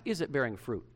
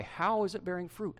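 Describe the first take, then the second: First: "Is" stressed as a yes-or-no question. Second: "How" punched higher as the key word; stress on HOW. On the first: Pastor quoting the question he didn't ask, stressing "Is". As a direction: lean on "Is", then let the question fall away. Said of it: "I didn't ask". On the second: Pastor correcting the question for the church, stressing "How". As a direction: hit "How" high, pressing for specifics. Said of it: "I didn't ask, "Is it bearing fruit?". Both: Shown as a demonstration.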